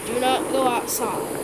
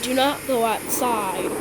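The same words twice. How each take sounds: The two takes are said the same way.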